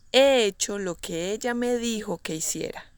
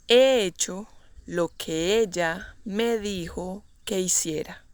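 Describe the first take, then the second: First: Said in the usual way. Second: Measured, broken into short chunks. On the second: Shown as a demonstration. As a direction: pause between phrases for learners to follow. Teacher models example slowly, then naturally.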